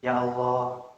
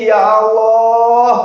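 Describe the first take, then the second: First: Low, soft, deflated call; doubtful. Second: Loud, high, long-drawn call; mock tearful wail. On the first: Acted. Preacher imitates worshipper doubting after prayer, subdued. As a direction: murmur it with faith drained away. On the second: Preacher imitates tearful prayer to Allah, wailing. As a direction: wail it out to God, stretched. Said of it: "Kita udah doa nangis-nangis".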